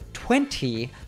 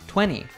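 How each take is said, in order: First: The T after the N is pronounced. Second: The T after the N is dropped. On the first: "instead of 20" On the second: "Americans often drop the T"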